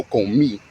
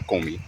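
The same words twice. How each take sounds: First: "comí" with the stress on the final í; stress on last syllable. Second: "comí" wrongly stressed on the co; stress on first syllable. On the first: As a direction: land firmly on the í of "comí". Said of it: "put the emphasis on the E". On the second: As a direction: hit CO in "comí", let the end drop. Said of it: "not comí". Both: Shown as a demonstration.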